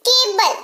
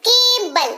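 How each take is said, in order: First: केबल with a hard k; pronunciation demo. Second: केबल said again with a hard k; pronunciation demo. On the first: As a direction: open केबल on a firm k sound. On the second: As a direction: stress the k in केबल. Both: Shown as a demonstration. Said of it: "क के तौर पर हो रहा है".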